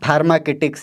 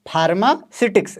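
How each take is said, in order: First: A k sound follows 'pharma'. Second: An s sound follows 'pharma'. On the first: The speaker calls it wrong. "बहुत से लोग इसको फार्माकिटिक्स या कुछ अलग अलग प्रोनाउंसिएशन कर देते हैं" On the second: The speaker calls it right. "लेकिन करेक्ट क्या है?"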